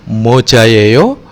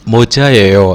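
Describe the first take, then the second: First: The voice rises at the end. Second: The voice falls at the end. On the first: It asks whether this is a hat. "apakah topi? ... nada tanya" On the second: It states that this is a hat. "yang artinya adalah topi"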